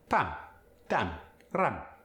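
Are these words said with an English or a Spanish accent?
Spanish. The vowel is an open Spanish ah sound.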